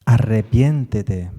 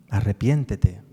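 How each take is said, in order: First: Loud, slow, emphatic "arrepiéntete"; urgent plea. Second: Said in the usual way. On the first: Acted. Preacher voicing the psalm's plea to the Lord, loud and slow. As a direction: call out "arrepiéntete" slowly, pleading hard.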